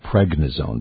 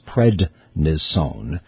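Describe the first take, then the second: First: It has a g sound before the n. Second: It has a d sound before the n. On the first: The speaker calls it wrong. "People often mispronounce it pregnisone" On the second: The speaker calls it right. "but it's prednisone"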